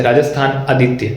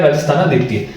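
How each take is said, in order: First: "राजस्थान आदित्य" said as two words, राजस्थान then आदित्य; two separate words. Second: "राजस्थानादित्य" run together as one word; joined as one word. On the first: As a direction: split "राजस्थान आदित्य" cleanly between न and आ. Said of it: "ये अलग नाम था ऐसे". ("राजस्थान आदित्य" को दो अलग शब्दों में बोलना) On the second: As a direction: join न straight into आ in "राजस्थानादित्य". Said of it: "लेकिन साथ में क्या है". ("राजस्थानादित्य" को जोड़कर एक शब्द में बोलना) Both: Shown as a demonstration.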